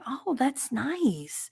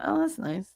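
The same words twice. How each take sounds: First: It sounds warm and genuinely enthusiastic. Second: It sounds flat and dismissive. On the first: The listener really likes what they see. The speaker calls it right. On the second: The listener is not really impressed. The speaker calls it wrong.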